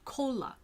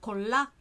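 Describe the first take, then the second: First: The stress is on the first syllable. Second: The stress is on the second syllable. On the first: "they always put their pronunciation on the first syllable" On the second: "instead of"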